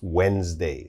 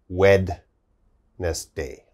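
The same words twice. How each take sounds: First: The d sound in the middle is silent. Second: The d sound in the middle is pronounced. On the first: The speaker calls it right. "we don't say the D sound" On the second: The speaker calls it wrong. "We don't say Wednesday"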